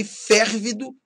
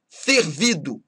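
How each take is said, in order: First: FÉRVIDO stressed on the first syllable, open é; tônica no FÉR. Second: FERVIDO stressed on VI, closed first e; tônica no VI. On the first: (férvido com tônica na primeira sílaba) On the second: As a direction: say Fervido with the weight on VI. (Fervido com tônica na penúltima) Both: Shown as a demonstration. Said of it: "mudam de sentido conforme a pronúncia".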